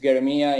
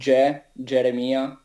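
First: The name is said with a German G. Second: The name is said with a strong Italian G. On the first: "usually in German it's Geremia" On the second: "In Italy we say Geremia. So we have the strong G"

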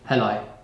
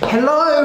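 First: It sounds cold and uninterested. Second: It sounds warm and interested.

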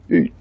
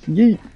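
First: It is said in a mechanical robot-like voice. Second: It is said in a normal speaking voice.

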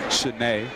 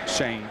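First: The name is said as Shanae. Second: The name is said as Shane. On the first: The speaker calls it right. "we are pronouncing that correctly" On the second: The speaker calls it wrong. "not Shane"

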